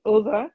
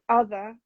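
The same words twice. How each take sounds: First: "other" with a short oo as in "put"; Yorkshire "other". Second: Said in the usual way. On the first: Shown as a demonstration. Showing the picked-up Yorkshire accent, "other" said as "oother". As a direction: say "other" as "oother", northern vowel. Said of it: "I very frequently say other". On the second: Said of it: "instead of other".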